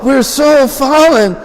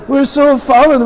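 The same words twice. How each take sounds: First: Much higher, slow hammed-up wail; mock lament. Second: Much higher wail, stress on so; mock lament repeated. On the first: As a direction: ham up the guilty despair. Danavir laments. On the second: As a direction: lean harder on so in despair.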